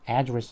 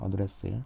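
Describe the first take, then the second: First: The stress is on the first syllable. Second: The stress is on the second syllable. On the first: It is the noun meaning an address or speech. "명사로 쓰이면 address 하게 되면" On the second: It is the verb meaning to approach or address. "동사로 쓰이면은 뒤를 강하게 발음을 해서"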